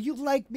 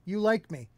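First: It is said in a cute, adorable way. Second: It is said in a plain, matter-of-fact way. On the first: The affection is welcomed with delight. "it used to be like this cute, adorable" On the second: The affection is simply acknowledged as a fact. "Now I hear it as"

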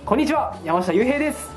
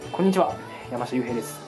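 First: The greeting sounds lively and upbeat. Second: The greeting sounds cool and detached. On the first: "ちょっと元気に" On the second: "ちょっとクールに"

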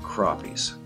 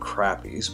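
First: Crappies is said with the standard pronunciation. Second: Crappies is said with the Canadian pronunciation. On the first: The speaker calls it right. "I pronounced it the right way this time" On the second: The speaker calls it wrong. "that's the way we say it up here in Canada"

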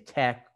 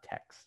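First: The word ends in a k sound. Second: The word ends in a ks sound. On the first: The speaker calls it right. "So people say Tech" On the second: The speaker calls it wrong. "but it's not Tex"

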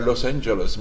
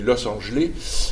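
First: The name is said with its usual pronunciation. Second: The name is reshaped to sound like French words. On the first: The place name is taken as a foreign name. "ne disent pas Los Angeles" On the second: The place name is given a joking meaning. "de façon plaisante et un peu sotte, ne disent pas Los Angeles, mais Los Angeles"

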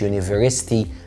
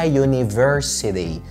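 First: The syllable 'si' is squeezed out before the ending. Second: The syllable 'si' is fully said before the ending. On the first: The speaker calls it wrong. "مش يونيفرستي" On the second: The speaker calls it right. "اسمها يونيفرسيتي"

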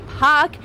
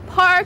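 First: The R sound before the K is dropped. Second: The R sound before the K is pronounced. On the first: "the local Bostonian accent not to pronounce your R's" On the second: "Instead of saying park"

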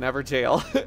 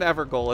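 First: The second part sounds like the word jail. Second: The second part sounds like the word goal. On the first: The speaker calls it right. "It's an ever jail" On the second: The speaker calls it wrong. "it's not an ever goal"

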